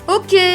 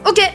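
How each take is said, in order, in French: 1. Il est dit sur un ton très content. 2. Il est dit sur un ton sec et mécontent. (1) "trop content" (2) "sec, clair, pas content"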